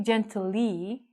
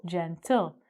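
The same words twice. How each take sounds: First: "gently" as gen-tuh-LEE, final E sounded as a long ee; wrong final-E pronunciation. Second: "gentle" split as JEN-tul, no ee at the end; two-syllable pronunciation. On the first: Teacher showing the mistake, "gently" said gen-tuh-lee. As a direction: stretch "gently" into three syllables ending in a drawn-out ee. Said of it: "we don't say gently". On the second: Teacher showing students the correct form, "gentle" as jen-tul. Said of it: "So we say gentle". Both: Shown as a demonstration.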